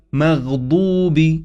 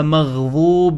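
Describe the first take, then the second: First: مغضوب with an emphatic d; heavy dad. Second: مغضوب with a th-like sound, as in "this"; dha for dad. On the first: Teacher modelling the correct letter, مغضوب with emphatic d. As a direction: slowly say مغضوب as maghdoob, heavy d. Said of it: "وهي بالضاد". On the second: Teacher showing a common error, مغضوب with dh for d. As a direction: misread مغضوب as maghdhoob. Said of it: "البعض يقرأها مغضوب". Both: Shown as a demonstration.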